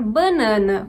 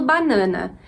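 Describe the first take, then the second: First: "banana" with a nasal first A, bã-NÃ-na; nasalized first vowel. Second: Said in the usual way. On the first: Shown as a demonstration. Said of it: "com uma nasalização também da primeira vogal". ("banana" com a primeira vogal nasalizada) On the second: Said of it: "eu falo banana".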